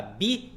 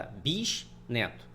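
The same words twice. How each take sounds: First: "bisneto" broken as bi... sneto, with a long pause; "bisneto" wrongly divided bi / sneto; wrong syllable split. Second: "bisneto" divided as bis... neto; lower, separated "bisneto": bis, then neto; correct syllable split. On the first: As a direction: split "bisneto" after bi, rising before the pause. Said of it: "Você não vai botar bisneto". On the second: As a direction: pause in "bisneto" after the s. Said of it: "Você vai botar bisneto". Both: Shown as a demonstration.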